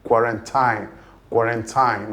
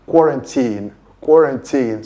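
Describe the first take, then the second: First: Quarantine ending in tyne, long i; mock common mistake; wrong pronunciation. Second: Put-on quarantine stressed first, ending in teen; teacher model KWOR-un-teen; correct pronunciation. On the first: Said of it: "People majorly pronounce it as". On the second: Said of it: "The pronunciation of that word is". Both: Shown as a demonstration.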